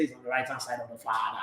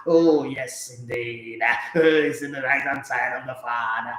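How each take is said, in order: First: Said in the usual way. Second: Drawn-out mock preacher cadence; preacher impression. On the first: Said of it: "Just preach normal". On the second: Host parodying a church pastor preaching, in drawn-out mock-solemn cadence. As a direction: stretch the words like a pastor in the pulpit. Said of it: "the pastor preached like that".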